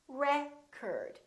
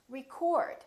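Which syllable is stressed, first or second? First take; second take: first; second. First: The stress is on the first syllable. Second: The stress is on the second syllable. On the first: It is used as a noun. "if it's a noun, it's pronounced as record. The first syllable is stressed" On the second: It is used as a verb. "If it's a verb, this word is pronounced record... It's prolonged and it's stressed"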